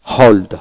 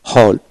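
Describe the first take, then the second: No difference in how they are said.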